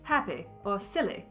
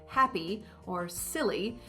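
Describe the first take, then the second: First: The words end with a lax ih vowel. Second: The words end with a tense ee vowel. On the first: "to an I sound" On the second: "the terminal or ending E sound"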